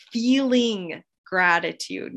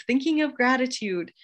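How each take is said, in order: First: Slow, weighty "feeling" set against "thinking"; slow, pointed "feeling gratitude" that contrasts with mere thinking; stress on feeling. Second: Said in the usual way. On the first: Shown as a demonstration. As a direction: lean into the word "feeling", drawn out. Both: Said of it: "not just thinking of it".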